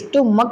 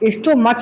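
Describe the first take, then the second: First: The word ends with a 'k' sound. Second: The word ends with a 'ch' sound. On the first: The speaker calls it right. "स्टोमक बोला जाता है" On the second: The speaker calls it wrong. "स्टोमच नहीं बोलते"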